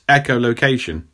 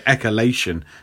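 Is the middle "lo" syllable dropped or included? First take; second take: included; dropped. First: The middle "lo" syllable is fully included. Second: The middle "lo" syllable is left out. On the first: The speaker calls it right. "It's echolocation" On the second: The speaker calls it wrong. "That's a stupid way of saying it"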